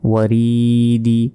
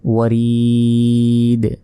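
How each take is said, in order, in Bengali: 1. শব্দটি ছোট ই স্বরধ্বনি দিয়ে শেষ হয়েছে। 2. শব্দটি সাকিনযুক্ত দ ব্যঞ্জন দিয়ে শেষ হয়েছে। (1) "দাল যে দি" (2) "এখানে উচ্চারণ হবে যদি থামি"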